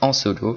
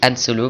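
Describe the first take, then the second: First: The first word sounds like French 'en'. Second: The first word sounds like English 'Han'. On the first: This is a private joke between friends. "moi j'aime bien dire en solo" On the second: This is the proper form of the name. "Ça se dit Han Solo"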